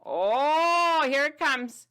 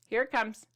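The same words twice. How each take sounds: First: Higher, louder thrilled announcement; excited reveal. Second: Said in the usual way. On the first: Acted. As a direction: build suspense for the big reveal.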